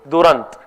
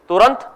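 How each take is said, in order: First: The word begins with a d sound. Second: The word begins with a t sound. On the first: This is the Bengali form of the same word. "In Bengali, instead of tu, they use du" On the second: This is the Hindi form meaning fast. "So in Hindi, Turant means fast"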